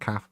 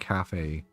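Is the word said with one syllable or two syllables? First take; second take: one syllable; two syllables. First: The word is said with one syllable. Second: The word is said with two syllables. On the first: It is the casual conversational form. "I'll omit the A" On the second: It is the reading or formal form. "I will say cafe if I read it"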